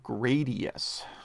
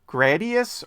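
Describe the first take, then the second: First: It is said with an extra 'ee' sound. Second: It is said without an extra 'ee' sound.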